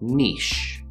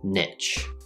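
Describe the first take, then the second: First: The word has a long E vowel and ends in an SH sound. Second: The word has a short I vowel and ends in a CH sound. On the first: "N sound, N, followed by the long E in words like P or me, and then simply the SH sound" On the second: "the short I sound, I, and the CH sound, ch. Literally the word itch"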